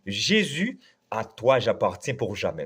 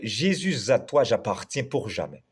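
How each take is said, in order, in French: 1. Jésus reste séparé de 'à toi', sans liaison. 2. Le s de Jésus se lie à 'à toi'. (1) "on ne peut pas avoir de liaison dans ce cantique. Donc, on dit" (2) "nous chantons chanter comme ça à l'église"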